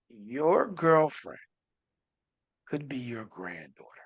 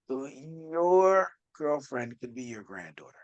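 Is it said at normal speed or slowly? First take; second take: slowly; normal speed. First: It is said slowly and deliberately. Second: It is said at a normal pace.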